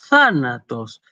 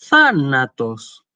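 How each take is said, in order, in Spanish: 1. El tono sube en la sílaba acentuada y luego baja. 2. El tono sube en la sílaba acentuada y luego baja.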